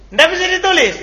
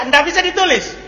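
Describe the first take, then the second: Both takes have the same delivery.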